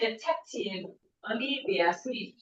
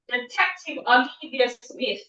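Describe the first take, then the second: First: The words are separated by pauses. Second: The words flow together without pauses. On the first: The speaker calls it wrong. "Don't say" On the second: The speaker calls it right. "pronounce all of that together"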